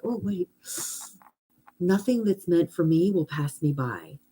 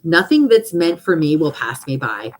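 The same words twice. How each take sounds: First: Soft, calming reminder to yourself; pause, then settle softly into the affirmation; peaceful self-reassurance. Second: Firm, louder affirmation; affirmation read aloud. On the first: Pretend. Answering her worries with an affirmation, softly reassuring. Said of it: "how much peace does that give you". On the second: Shown as a demonstration. Reading her own affirmation to the group, firm and declarative. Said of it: "Here's my one that I had".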